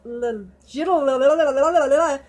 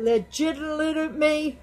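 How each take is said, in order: First: "legitimate" slowly stumbling into a laughing jumble of syllables; garbled legitimate. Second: "legitimate" said slowly and carefully, syllable by syllable; slow, deliberate "legitimate". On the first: Tripping over "legitimate" while laughing, slow and garbled. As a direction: slur "legitimate" into babble, laughing. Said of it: "my brain won't let me do that". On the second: Retrying the word for the viewers, slow and careful. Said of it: "say that". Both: Real, not acted.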